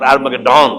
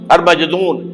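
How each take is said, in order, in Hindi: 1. यह अंग्रेजी जैसी आवाज़ों के साथ बोला जाता है। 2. यह अरबी जैसी आवाज़ों के साथ बोला जाता है। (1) "उसे कहते हैं अंग्रेजी के अंदर" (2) "उसे कहते हैं अरबी में"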